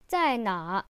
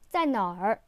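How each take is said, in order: First: The word ends without an added er sound. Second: The word ends with an added er sound. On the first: "without the er sound" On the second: "with the er sound"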